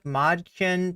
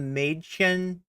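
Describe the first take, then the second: First: The first vowel is a plain vowel. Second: The first vowel is changed by the umlaut.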